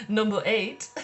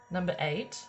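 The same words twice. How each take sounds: First: Laughing emphasis. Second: Said in the usual way. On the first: Shown as a demonstration. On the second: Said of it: "which I was just like, "What?".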